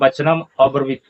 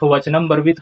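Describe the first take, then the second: First: It is said with an 'a' before 'bravit'. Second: It is said with no vowel before 'bravit'. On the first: The speaker calls it right. "यहाँ उच्चारण होगा राजा वचनम अब्रवीत" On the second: The speaker calls it wrong. "सिर्फ वचनम ब्रवीत कहने से नहीं होगा"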